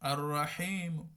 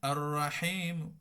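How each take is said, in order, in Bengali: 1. শেষ স্বরটি শুধু হালকাভাবে উচ্চারিত হয়। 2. শেষ স্বরটি শুধু হালকাভাবে উচ্চারিত হয়।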